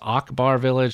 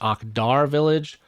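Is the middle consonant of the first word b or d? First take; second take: b; d. First: The first word has a b sound in the middle. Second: The first word has a d sound in the middle. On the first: The speaker calls it wrong. "Mispronounced it last week. I said it was Akbar Village" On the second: The speaker calls it right. "It's Akdar Village"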